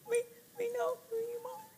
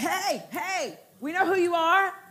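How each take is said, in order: First: It sounds afraid and cowering. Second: It sounds belligerent and confrontational.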